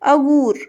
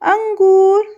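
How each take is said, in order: First: The first vowel is plain, with no nasal sound. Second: The first vowel is followed by a nasal sound. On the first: It is not a real word. The speaker calls it wrong. "अगूर तो कुछ नहीं होता" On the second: It names grapes. The speaker calls it right. "जब इस पे हमने ये अनुस्वार लगाया"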